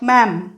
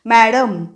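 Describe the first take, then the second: First: The word has one syllable without a d. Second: The word has two syllables with a middle d. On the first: The speaker calls it right. "डचा उच्चार नाही करायचा मधल्या, म्हणायचं मॅम" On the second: The speaker calls it wrong. "मॅडम असं नाही म्हणायचं आहे"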